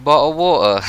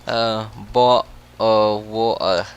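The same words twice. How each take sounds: First: Clipped British "Bottle of water", the t swallowed; British accent. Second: Slow, careful British "bottle of water"; drawn-out British take on "bottle of water"; British accent. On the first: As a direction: drop the t in "water" British style. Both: Shown as a demonstration. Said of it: "a very British thing to say".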